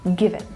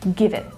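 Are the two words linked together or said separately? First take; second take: linked; linked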